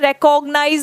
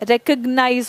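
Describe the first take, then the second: First: The second vowel is a full 'o' sound. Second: The second vowel is short and reduced. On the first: The speaker calls it wrong. "रिकॉग्नाइज नहीं होता है" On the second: The speaker calls it right. "रिकग्नाइज होता है"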